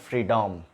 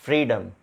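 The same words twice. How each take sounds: First: The second vowel is a full, unreduced sound. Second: The second vowel is a weak, short uh sound. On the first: The speaker calls it wrong. "It's not freedom" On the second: The speaker calls it right. "Then freedom"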